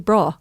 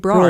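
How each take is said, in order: First: The word ends in a vowel with no R. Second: The word ends with an added R sound. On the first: "they can't say bra" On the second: "They say brar"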